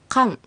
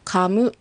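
First: The word ends with closed lips and nasal air. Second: The word ends with a clear open vowel. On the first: The speaker calls it right. "ちょっと鼻から抜けるような感覚" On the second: The speaker calls it wrong. "カムではなく"

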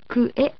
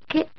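First: Ku and e are said as separate parts. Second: Ku and e merge into one syllable, ke. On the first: The speaker calls it wrong. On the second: The speaker calls it right.

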